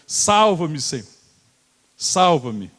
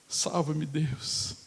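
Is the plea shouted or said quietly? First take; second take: shouted; quiet. First: The plea is shouted loudly and urgently. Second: The plea is said quietly without urgency.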